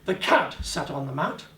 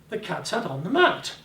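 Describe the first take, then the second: First: The word cat carries the emphasis. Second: The word mat carries the emphasis. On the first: It was the cat, not another animal. "not the dog, not the guinea rib, the guinea pig" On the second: It was the mat, not the table. "The bloody mat, not the table, but the mat"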